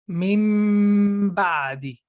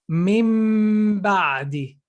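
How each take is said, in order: No difference in how they are said.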